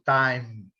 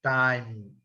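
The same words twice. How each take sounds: Both takes have the same delivery.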